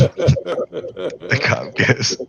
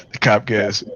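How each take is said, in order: First: Slow, words stretched by laughter; giggling too hard to get it out; laughing through words. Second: Said in the usual way. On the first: Real, not acted. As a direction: try to say it while cracking up. Laughing while retelling.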